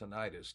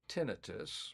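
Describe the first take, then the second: First: The word ends sounding like '-itis'. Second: The word ends with a plain '-tus' sound. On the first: The speaker calls it wrong. "A lot of people call it tinnitus. Tinnitus would be inflammation of the area. Itis" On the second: The speaker calls it right. "which is the proper pronunciation of the word"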